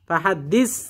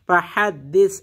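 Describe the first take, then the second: First: The word ends with a plain 's' sound. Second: The word ends with a soft 'th' sound. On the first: The speaker calls it wrong. "ফাহাদ্দিস বললে সিন হয়ে যাবে" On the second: The speaker calls it right. "এটা সা"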